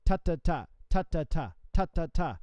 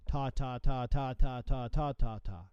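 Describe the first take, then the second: First: Ta ta ta with a gap where the fourth note goes; spaced groups of ta ta ta; correct rhythm. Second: Ta ta ta run together evenly as triplets, a bit slow; smeared triplet ta ta ta; wrong rhythm. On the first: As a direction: sing ta ta ta as three sixteenths plus a rest. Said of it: "keep that space of the fourth sixteenth note". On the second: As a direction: roll ta ta ta without any gap. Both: Shown as a demonstration.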